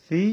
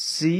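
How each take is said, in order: First: "সি" as a soft thee; no hiss escaping at the start of "সি"; soft tha. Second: "সি" with a hissing s; sharp, audible s opening "সি"; audible sin. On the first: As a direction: say "সি" gently with th for s. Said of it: "নরমভাবে উচ্চারণ হবে". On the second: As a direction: let the s of "সি" sound outward. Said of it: "শব্দ বাইরে হবে". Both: Shown as a demonstration.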